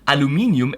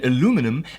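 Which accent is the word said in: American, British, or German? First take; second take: German; American. First: It is said with a German pronunciation. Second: It is said with an American pronunciation. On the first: "as we Germans say" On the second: "as the Americans say"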